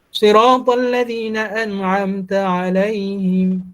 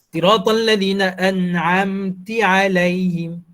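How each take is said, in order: First: The word ends with the vowel 'a'. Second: The word ends with the vowel 'i'. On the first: The speaker calls it right. "Ta itu baris atas asalnya" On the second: The speaker calls it wrong. "kita baca baris berubah"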